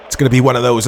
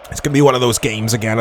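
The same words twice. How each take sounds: First: Words a bit thick from a sip of water; slightly garbled after a gulp of water; after a swig of water. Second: Said in the usual way. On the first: Real, not acted. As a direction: talk just after drinking. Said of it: "Sorry, I was having a swig of water". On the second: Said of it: "I'll try that again".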